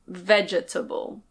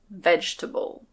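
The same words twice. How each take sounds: First: Every syllable of the word is pronounced. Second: One syllable of the word is dropped. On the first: "This can technically be pronounced vegetable" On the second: "I highly recommend that you just say vegetable"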